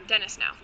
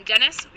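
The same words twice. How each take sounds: First: Dennis now said with a firm falling tune; settled falling tune. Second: Dennis asked with a rising, unsure tune; unsure rising question. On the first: Naming the cactus for good, falling and settled. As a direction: settle on the name, dropping at the end. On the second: Searching memory for the cactus's name, rising. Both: Real, not acted. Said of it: "what did I call him?".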